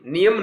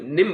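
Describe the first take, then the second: First: The ending is said as two syllables. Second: The ending is said as one syllable. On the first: The speaker calls it wrong. "नियम नहीं" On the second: The speaker calls it right. "निम बोला जाता है"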